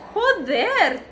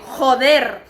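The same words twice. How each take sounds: First: It sounds pleasantly surprised and friendly. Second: It sounds angry and annoyed. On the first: Reacting with surprise to good news. "So in a good way, maybe if you say like joder tia" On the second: Cursing at an accident. "maybe the people will look at you like, please be a little bit more"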